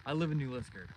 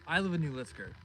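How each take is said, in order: Both takes have the same delivery.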